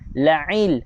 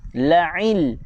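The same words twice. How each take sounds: Both takes have the same delivery.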